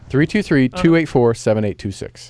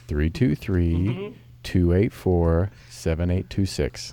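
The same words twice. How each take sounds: First: The number is read at normal speed. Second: The number is read slowly.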